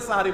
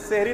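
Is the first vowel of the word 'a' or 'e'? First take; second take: a; e. First: The first syllable has an 'a' vowel. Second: The first syllable has an 'e' vowel. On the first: The speaker calls it right. "সাহারি বলুন, দ্বন্দ্বের উপরে আকার দিয়ে দেন" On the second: The speaker calls it wrong. "সেহরি না বলে"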